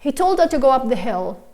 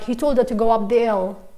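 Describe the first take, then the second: First: The h sound at the start of 'hill' is pronounced. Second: The h sound at the start of 'hill' is dropped. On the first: The speaker calls it right. "I did pronounce the H because it doesn't disappear naturally" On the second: The speaker calls it wrong. "I couldn't say like"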